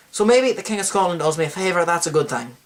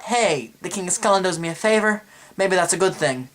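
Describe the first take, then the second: First: Bad Scottish accent, closer to Irish; put-on Scottish accent. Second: Said in the usual way. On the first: Host redoing the king's thought after forgetting his accent, put-on Scottish accent. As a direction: redo it in a rough Scottish-Irish brogue. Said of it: "forgot to talk my accent". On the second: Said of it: "completely forgot to talk my accent".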